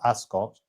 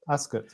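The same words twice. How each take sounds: First: The last syllable does not sound like 'soot'. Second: The last syllable sounds like 'soot'. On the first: The speaker calls it wrong. "that's how I pronounce it as well" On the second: The speaker calls it right. "as in soot"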